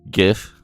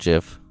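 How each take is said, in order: First: The word begins with a hard G sound. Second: The word begins with a soft J sound. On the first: The speaker calls it right. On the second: The speaker calls it wrong.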